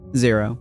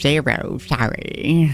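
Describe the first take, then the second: First: It is said in the reader's normal voice. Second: It is said in a put-on nerdy character voice.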